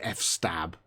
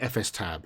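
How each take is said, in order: First: It is said as F plus the word stab. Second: The letters F and S are said separately. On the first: "I've heard people call it F stab" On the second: "I always called it F S tab"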